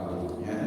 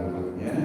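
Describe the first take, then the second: No difference in how they are said.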